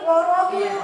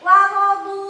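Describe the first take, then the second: First: The first syllable wa sounds heavy and dark. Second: The first syllable wa sounds thin and light. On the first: The speaker calls it wrong. "Jadi sok kebawakeun jadi warodu" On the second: The speaker calls it right. "wa ro pendek, du-nya baru tebal"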